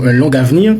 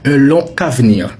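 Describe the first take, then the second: First: Long links to avenir with a G sound. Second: Long links to avenir with a K sound. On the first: The speaker calls it wrong. "vous n'allez pas dire" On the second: The speaker calls it right. "mais vous allez dire"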